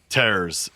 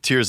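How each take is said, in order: First: The word rhymes with fares. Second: The word rhymes with fears. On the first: It refers to ripping apart. "it could very easily be a play on tearing" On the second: It refers to crying. "most people are going to say that Tears of the Kingdom"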